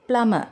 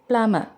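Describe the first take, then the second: First: The b sound is left out entirely. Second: The b sound is left out entirely.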